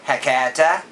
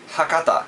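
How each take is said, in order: First: The a vowels are broad and drawn out. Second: The a vowels are short and plain. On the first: The speaker calls it wrong. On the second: The speaker calls it right.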